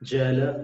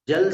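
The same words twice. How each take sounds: First: The word ends with a short final vowel. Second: The word ends on a bare consonant. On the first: The speaker calls it right. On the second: The speaker calls it wrong.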